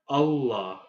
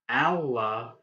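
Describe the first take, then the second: First: The first vowel sounds like in 'hull'. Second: The first vowel sounds like in 'Alexander'. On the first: The speaker calls it right. "you would say Allah" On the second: The speaker calls it wrong. "instead of saying Allah"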